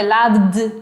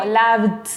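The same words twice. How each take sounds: First: "loved" ending in a voiced d; one-syllable "loved" closed on a marked d. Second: "loved" ending in a voiceless t, lov-t; one-syllable "loved" closed on a crisp t. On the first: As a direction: keep the buzz through the v-d of "loved". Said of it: "a veces con D". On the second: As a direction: swap the last d of "loved" for a t. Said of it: "a veces con T". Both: Shown as a demonstration.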